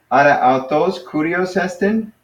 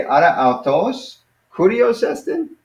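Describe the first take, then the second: First: Rising question tune on esten; asking a question. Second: Higher, slow, rising on esten as a question; pointed question. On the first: Teacher models the Greek question to student, rising tune. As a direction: lift the end of esten into a question. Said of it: "And then you would reply". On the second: Teacher points at him and asks, slow rising question. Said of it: "I'm pointing to him, say". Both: Shown as a demonstration.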